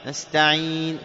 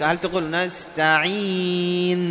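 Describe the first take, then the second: First: Said in the usual way. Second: نستعين with the final nun wrongly hummed long; wrong reading. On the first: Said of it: "كيف نقرأ نستعين؟". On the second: Shown as a demonstration. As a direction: show the error, drag the nun of نستعين. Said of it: "لا، خطأ".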